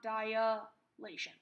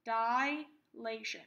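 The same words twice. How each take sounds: First: DILATION with an extra vowel, "dai-uh-LAY-shun"; mispronunciation. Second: DILATION with no extra vowel, "dai-LAY-shun"; correct pronunciation. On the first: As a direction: slowly say "dilation" wrongly as four syllables, "dai-uh-lay-shun". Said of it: "not dilation". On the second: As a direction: say "dilation" deliberately, "dai" running straight into "LAY". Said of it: "Again, this is pronounced dilation". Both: Shown as a demonstration.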